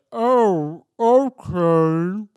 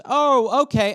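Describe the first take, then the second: First: Drawn-out, distorted slow-motion voice; loud mock slow-motion reply. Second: Said in the usual way. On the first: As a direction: stretch every syllable as if time slowed. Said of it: "it's, like, slow motion". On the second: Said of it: "she goes".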